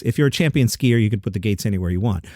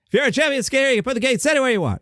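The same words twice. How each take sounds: First: Said in the usual way. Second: Much higher, fast, exasperated mock-angry read; half-ass angry Jerry Seinfeld. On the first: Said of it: "if I read the quote flat". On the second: Shown as a demonstration. Host demoing his angry Seinfeld against the flat read. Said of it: "I like to do the angry, half-assed Jerry Seinfeld".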